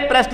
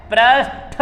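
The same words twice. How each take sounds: First: पृष्ठ ending in unaspirated T; wrong form. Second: पृष्ठ slowly split, "prash-THa"; correct form. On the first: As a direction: cite पृष्ठ briskly as "prasht". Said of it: "अरे पृष्ठ नहीं होता". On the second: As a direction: draw out पृष्ठ to a breathed TH. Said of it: "पृष्ठ होता है". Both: Shown as a demonstration.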